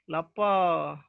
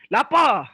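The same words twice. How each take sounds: First: The word is said with a low pitch. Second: The word is said with a high pitch. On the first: The speaker is truly hungry and a little sad. "dengan intonasi yang rendah" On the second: The speaker is angry. "menggunakan intonasi yang tinggi"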